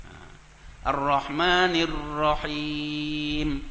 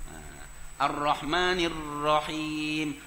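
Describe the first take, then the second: No difference in how they are said.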